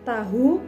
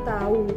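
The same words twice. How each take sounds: First: The middle h sound is pronounced. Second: The middle h sound is dropped. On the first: The speaker calls it right. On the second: The speaker calls it wrong.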